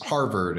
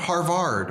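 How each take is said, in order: First: The word is pronounced in the ordinary way. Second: The word is pronounced in an odd, distorted way. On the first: Another character gives the usual form. The speaker calls it right. "D J says that's Harvard and Dartmouth" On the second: A character gets the name wrong. The speaker calls it wrong. "He mispronounces those"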